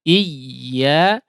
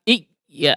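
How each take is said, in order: First: The y is pressed softly. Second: The y is pressed too hard. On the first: The speaker calls it right. "Menekan tapi secara lunak" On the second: The speaker calls it wrong. "bukan iya, ah, seperti mati ya, ... menekannya terlalu keras"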